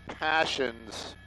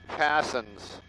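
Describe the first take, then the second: First: It is said like the word 'passions'. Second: It is said like 'passons', without the 'sh' sound. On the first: The speaker calls it wrong. "not passions" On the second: The speaker calls it right. "it's passons"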